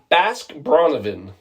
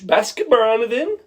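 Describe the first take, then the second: First: It is said in a plain accent. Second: It is said in a Swedish accent.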